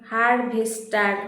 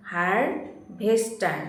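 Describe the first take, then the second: First: harvester said slowly as an answer to write; slow dictation. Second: harvester very slow, broken into its parts; syllable by syllable. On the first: Teacher gives pupils the answer, harvester slowly dictated. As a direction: give harvester at an unhurried, dictating pace. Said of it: "বানানটা ঠিক করে নাও". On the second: Teacher shows how to pronounce it, harvester split into syllables. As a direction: stretch harvester out, each syllable separate. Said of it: "কিভাবে উচ্চারণ করবে? এইভাবে।". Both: Shown as a demonstration.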